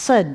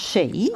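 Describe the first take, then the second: First: It is said like 'sid', with a final d. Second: It is said like 'she', with no final d. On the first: It names the land. "the land is pronounced Sid, which is the Welsh pronunciation" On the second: It names the people. "the people are pronounced she"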